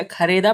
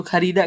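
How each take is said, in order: First: खरीदा as kha-RAY-da; ay vowel in खरीदा. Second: खरीदा as kha-REE-da; long ee in खरीदा. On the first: Teacher showing it without the vowel mark, खरीदा as kha-ray-da. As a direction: swap the long "ee" of खरीदा for "ay". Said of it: "अगर नीचे खड़ी जेर नहीं लगती". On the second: Teacher contrasting two readings, खरीदा with long ee. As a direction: give खरीदा a long "ee" in the middle. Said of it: "खड़ी जेर लगने की वजह से खरीदा पढ़ा गया". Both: Shown as a demonstration.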